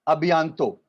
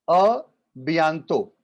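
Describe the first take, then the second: First: Said in the usual way. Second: "a" then a pause, then "bientôt" said apart; split model phrase. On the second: Shown as a demonstration. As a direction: break "a bientôt" into two parts for the class. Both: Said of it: "see you soon is".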